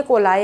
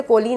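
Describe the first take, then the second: First: कोलाई said as ko-LIE, ending on an eye sound; the correct कोलाई, ko-LIE, set right for the class; कोलाई pronounced ko-LIE, the right way; correct coli. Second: कोली said as KO-lee, ending on a long ee sound; the mistaken कोली, KO-lee, as students misread it; कोली pronounced KO-lee, the wrong way; wrong coli. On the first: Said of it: "कोली नहीं है". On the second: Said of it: "मेरे कुछ बच्चे कोलीज को पढ़ते थे". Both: Shown as a demonstration.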